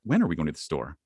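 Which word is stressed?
when. The stress falls on the word when. The question is about the time of going. "now it's about time"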